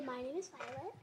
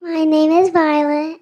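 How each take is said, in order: First: Put-on softly feeding the line for the child to repeat; soft prompting voice; quiet prompt. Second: Said out loud and clearly into the mic; loud, confident introduction; loud and proud. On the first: Shown as a demonstration. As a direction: murmur the words as a prompt, very soft. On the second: Real, not acted. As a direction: announce it boldly and loudly.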